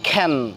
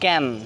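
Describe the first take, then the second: First: The first k sound has a puff of air. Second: The first k sound has no puff of air. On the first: The speaker calls it right. "এখন থেকে সেসব জায়গায় আমরা পড়ব" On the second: The speaker calls it wrong. "আগে আমরা পড়তাম"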